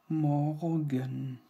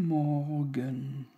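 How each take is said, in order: No difference in how they are said.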